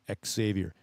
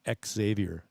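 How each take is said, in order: First: The name begins with a KS sound. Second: The name begins with a KS sound.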